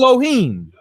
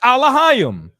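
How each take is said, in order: First: The word begins with an 'eh' sound. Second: The word begins with an 'ah' sound. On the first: This is how another group says it. "pronounce it" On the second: This is how the speaker's own group says it. "We pronounce it"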